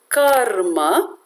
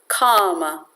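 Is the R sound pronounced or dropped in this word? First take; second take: pronounced; dropped. First: The R sound is pronounced clearly. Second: The R sound is dropped completely. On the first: It means action. The speaker calls it right. "which means action" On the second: It means desires. The speaker calls it wrong. "a common pronunciation is kama"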